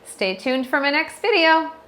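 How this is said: The pitch rises at the end. It sounds open-ended and unsure, like a question. The speaker calls it wrong. "they end each sentence on an up inflection"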